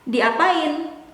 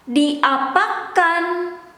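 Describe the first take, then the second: First: The word ends with the syllable in. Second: The word ends with the syllable kan. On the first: It is the casual everyday form. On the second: It is the standard form.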